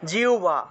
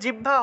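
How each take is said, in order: First: The word is said the Sanskrit way. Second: The word is said the everyday Bengali way. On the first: The speaker calls it right. "উচ্চারণ হবে জিহ্বা" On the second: The speaker calls it wrong. "আমরা যে জিহ্বা উচ্চারণ করি না, এটা জিহ্বা হবে না"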